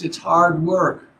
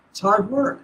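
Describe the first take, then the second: First: "hard" slowed and leaned on; "It's hard work" with a heavy, slow "hard"; stress on hard. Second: "work" lifted in a soft rising tune; softer repeat. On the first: Teacher stressing "hard" to retreat students. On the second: Teacher echoing the point gently to students. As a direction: quieter echo of "It's hard work" ending on a rise. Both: Shown as a demonstration. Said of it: "But it's not five days of bliss".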